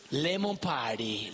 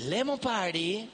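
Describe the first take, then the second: First: Lemon Party said low and slowly, like a grand reveal; announced name, low and slow. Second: Lemon Party lifted higher and slowed, savouring it; repeated name, brighter. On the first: Presenting the centrepiece name low and drawn out. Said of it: "el famoso y popular". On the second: Echoing the centrepiece name to the guests, higher and savoured. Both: Shown as a demonstration.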